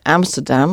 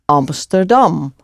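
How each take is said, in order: First: The first vowel is a flat, English-style 'a'. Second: The first vowel is an open 'ah' sound. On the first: The speaker calls it wrong. "we don't say Amsterdam" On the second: The speaker calls it right. "we say Amsterdam, like the start ah"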